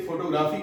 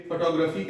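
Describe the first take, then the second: First: फोटोग्राफी as foto-GRAA-fee; common mispronunciation. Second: फोटोग्राफी as fuh-TOG-ruh-fee; correct pronunciation. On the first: Retold or imitated. Teacher quotes how learners say it, फोटोग्राफी as foto-graa-fee. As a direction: say फोटोग्राफी with full O's and long AA. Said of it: "आप यदि इसे फोटोग्राफी कहते हैं". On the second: Shown as a demonstration. Teacher gives the replacement, फोटोग्राफी as fuh-TOG-ruh-fee. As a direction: put the stress on TOG in फोटोग्राफी. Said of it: "के जगह पे फोटोग्राफी कहनी है".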